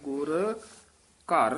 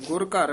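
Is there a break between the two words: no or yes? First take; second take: yes; no. First: A short break separates the two words. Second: The two words run together without a break. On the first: The speaker calls it right. "ਗੁਰ ਇੱਥੇ ਯਮਕ ਲਾ ਦੇਣੀ ਹੈ" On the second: The speaker calls it wrong. "ਗੁਰ ਘਰ ਇਕੱਠਾ ਨਹੀਂ ਕਹਿਣਾ"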